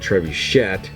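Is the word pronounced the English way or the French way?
English. The word has an English-style pronunciation. "sometimes called the trebuchet"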